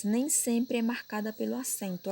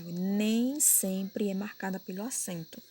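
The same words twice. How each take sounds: First: Said in the usual way. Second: Slow, emphatic "nem", then the rest follows; emphatic repeat. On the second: Shown as a demonstration. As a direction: stress on "nem", drawn out slowly. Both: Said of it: "Olha o que eu acabei de falar".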